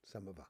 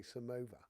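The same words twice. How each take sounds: First: "Samova" as SUM-uh-vuh; trying another pronunciation. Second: "Samova" as suh-MOH-vuh; trying a pronunciation. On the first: Streamer asking the right way of saying it, trying another pronunciation. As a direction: stress the first syllable of "Samova", short middle vowel. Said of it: "Is that the right way of saying it?". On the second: Streamer checking a word with listeners, trying a pronunciation. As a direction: stress the long MOH in "Samova". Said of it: "Am I saying it correctly when I say". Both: Shown as a demonstration.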